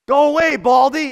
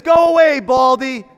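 First: Higher, louder schoolyard taunt; mock taunting yell. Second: A high, loud shouted jeer; full shout. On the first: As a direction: jeer like the naysayers. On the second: Retold or imitated. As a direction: yell it at the top of your voice. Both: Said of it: "and they're yelling".

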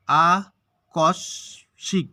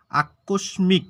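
First: আকস্মিক very slow, three syllables with long gaps. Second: Said in the usual way. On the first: Shown as a demonstration. Teacher showing there are three syllables, syllable by syllable. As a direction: pull আকস্মিক apart into three beats. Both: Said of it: "এখানে হচ্ছে তিনটা দল".

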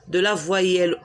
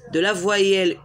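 No difference in how they are said.

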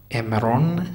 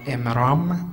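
First: عمران said as emron with a rounded o; Hebrew pronunciation. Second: Said in the usual way. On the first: Shown as a demonstration. Teacher showing the class how عمران is pronounced in Hebrew, as emron. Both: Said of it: "تلفظاتی است که در عبری".

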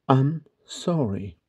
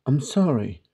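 First: "I'm sorry" drawn out slowly; slow teaching repetition. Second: Said in the usual way. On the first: Shown as a demonstration. Teacher repeats phrase slowly for learners. ("I'm sorry" yavaş yavaş, tane tane)

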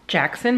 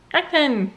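First: Said in the usual way. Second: "Jackson" said high as "Ackson", dropping the J; baby says "Jackson" as "Ackson"; toddler's "Jackson". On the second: Retold or imitated. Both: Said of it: "but he goes".

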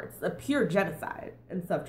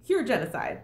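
First: Said in the usual way. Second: Pure hit hard and louder, falling; stress on pure. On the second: Shown as a demonstration. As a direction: punch pure, then drop through genocide. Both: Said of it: "let's just make that super, super clear".

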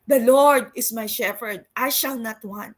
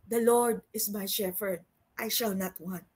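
First: Louder proclaiming of The Lord is my shepherd; preacher proclaiming Psalm twenty-three to the church; proclaimed. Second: Soft recital. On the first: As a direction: declare it boldly. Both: Shown as a demonstration. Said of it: "repeated louder".

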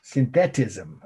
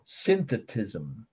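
First: Synthetism with stressed middle "THET", like sin-THET-ism; alternative pronunciation. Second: Synthetism with a weak, unstressed middle "the", like SIN-thuh-tism; first pronunciation. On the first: Teacher offering the other way, synthetism pronounced sin-THET-ism. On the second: Teacher introducing a new term, synthetism pronounced SIN-thuh-tism. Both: Shown as a demonstration. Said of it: "I've heard it pronounced both ways".

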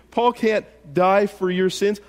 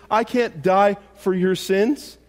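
First: Paul hit higher and louder, rest falls; stress on Paul. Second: I lifted and slowed, rising; stress on I. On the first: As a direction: lean on Paul to set him apart. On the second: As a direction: point at yourself with "I". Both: Shown as a demonstration.

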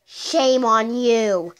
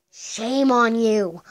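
First: Slow, drawn-out shame on you; mock scolding. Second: Slow "shame on you" again; mock scolding. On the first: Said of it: "Whoever sent that". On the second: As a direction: scold slowly, stressing "shame". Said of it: "If you did it".

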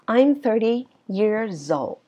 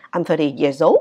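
First: Put-on very slow "I'm thirty years old", "old" falling; falling statement tune. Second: Put-on "old" swoops up like a question; wrong rising ending. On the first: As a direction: draw it out and drop on "old". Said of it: "thì nó sẽ đi xuống". ("old" xuống giọng, thật chậm) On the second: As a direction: end "I'm thirty years old" with "old" raised. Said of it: "Chứ không có ai nói là". ("old" lên giọng cuối câu) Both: Shown as a demonstration.

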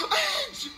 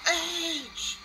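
First: Edge! screamed far higher and much louder; full scream. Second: Name him with a hype call; excited call. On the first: Host screaming the star's name in total hype. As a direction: scream the name at the top of your lungs. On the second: Host calling out the returning star's name. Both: Real, not acted.

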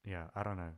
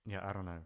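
Both takes have the same delivery.

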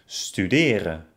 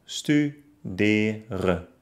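First: Said in the usual way. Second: Stu-de-ren, each syllable apart; studeren by syllables. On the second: Shown as a demonstration. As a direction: pause after each vowel in studeren. (studeren Silbe für Silbe) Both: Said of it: "trenne das Wort dann".

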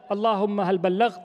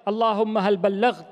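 No difference in how they are said.

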